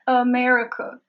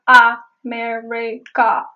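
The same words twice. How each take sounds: First: The first vowel is a weak schwa sound. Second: The first vowel is a full A sound. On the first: The speaker calls it right. "at the beginning, there's the schwa sound" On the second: The speaker calls it wrong. "It is not America. There are no A's, no A sounds"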